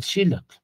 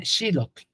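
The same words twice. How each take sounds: First: Said in the usual way. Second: Xilotl said with the stress on XI, the first syllable. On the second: Shown as a demonstration. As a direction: lean on the I of Xilotl, let the tl fade. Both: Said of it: "que el acento va en la I".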